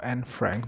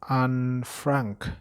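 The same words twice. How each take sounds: First: The name is said with English pronunciation. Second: The name is said with Dutch or German pronunciation. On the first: "according to a conventional English" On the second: "maybe that is like Dutch of, or, or German pronunciation"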